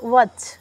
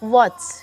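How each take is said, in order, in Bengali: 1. শব্দটি w ধ্বনি দিয়ে শুরু হয়। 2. শব্দটি w ধ্বনি দিয়ে শুরু হয়।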